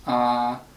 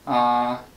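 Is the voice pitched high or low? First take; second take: low; low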